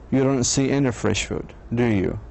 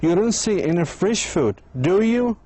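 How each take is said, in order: First: The voice falls on the final do you. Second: The voice rises on the final do you.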